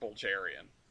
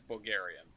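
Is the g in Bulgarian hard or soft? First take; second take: soft; hard. First: The g is soft, like a j. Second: The g is hard, as in go. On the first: "instead of Bulgarian" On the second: "everything I've ever heard is Bulgarian"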